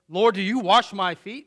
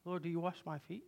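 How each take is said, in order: First: It sounds upset and indignant. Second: It sounds calm and not upset.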